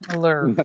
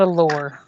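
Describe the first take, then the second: First: The word rhymes with 'manure'. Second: The word sounds like 'lore'. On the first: The speaker calls it right. "a lure like manure" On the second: The speaker calls it wrong. "Not a lure"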